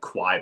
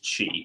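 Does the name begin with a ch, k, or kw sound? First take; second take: kw; ch. First: It begins with a kw sound. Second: It begins with a ch sound. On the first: The speaker calls it wrong. "I thought it was pronounced like Kwai" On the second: The speaker calls it right. "I figured out it was it was Chi"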